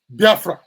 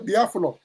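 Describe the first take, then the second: First: The second syllable is fra, with an r. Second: The second syllable is flo, with an l. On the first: This is the form outsiders used. "The Portuguese mispronounced it to be um" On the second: This is the original local name. "they now say Biaflo"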